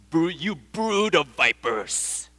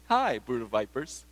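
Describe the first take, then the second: First: Slow, weighted furious insult; furious curse. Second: A casual, friendly "Hi, brood of vipers" with a rising tune; cheery greeting. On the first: John the Baptist cursing the Pharisees, slow and furious. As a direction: curse them with every word. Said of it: "You gotta be angry to say such a thing". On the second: Preacher showing the insult said wrongly, as a cheery greeting. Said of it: "You can't say". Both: Shown as a demonstration.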